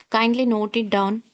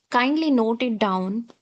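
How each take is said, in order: No difference in how they are said.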